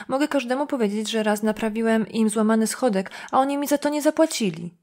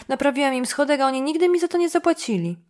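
First: Said in the usual way. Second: Higher, louder aggrieved protest; insistent complaint. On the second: Acted. Dunham repeats his unpaid-step grievance to Jim, loud and aggrieved. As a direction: push the grievance up and out.

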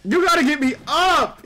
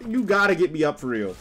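First: Shouting. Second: Said in the usual way. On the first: Real, not acted. Begging teammate for revive.

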